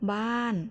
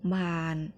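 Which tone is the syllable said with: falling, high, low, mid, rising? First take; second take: falling; low. First: The syllable is said with a falling tone. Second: The syllable is said with a low tone.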